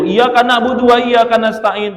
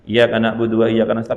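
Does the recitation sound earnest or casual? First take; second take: earnest; casual. First: It is recited earnestly. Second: It is recited casually.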